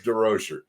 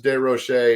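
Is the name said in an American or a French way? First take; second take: American; French. First: The name is said with American pronunciation. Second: The name is said with French pronunciation. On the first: "if you're an American like us" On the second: "if you had a French class"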